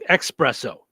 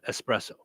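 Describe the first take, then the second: First: The word begins with an 'ex' sound. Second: The word begins with an 'es' sound. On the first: The speaker calls it wrong. "saying espresso" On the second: The speaker calls it right. "instead of espresso"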